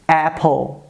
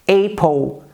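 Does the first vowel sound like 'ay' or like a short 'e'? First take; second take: short e; ay. First: The first vowel sounds like a short 'e'. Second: The first vowel sounds like 'ay' in 'day'. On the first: The speaker calls it right. "a gente diz Apple" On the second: The speaker calls it wrong. "a gente não diz Apple"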